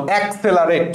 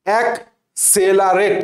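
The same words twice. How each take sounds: First: Said in the usual way. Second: অ্যাক্সেলারেট slowly, split after the first syllable; broken into syllables. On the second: Shown as a demonstration. Teacher sounding out an exam word for students, syllable by syllable. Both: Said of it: "এটাকে আমি পড়ি".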